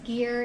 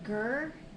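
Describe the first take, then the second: First: The vowel sounds like 'ear'. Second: The vowel sounds like 'er'. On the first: The speaker calls it right. "I can only use gear" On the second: The speaker calls it wrong. "It looks like it's pronounced gur"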